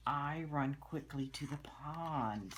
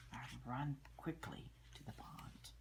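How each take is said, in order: First: Said in the usual way. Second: Softly whispered repeat; whispered reread for the child. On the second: Shown as a demonstration. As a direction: whisper the sentence back.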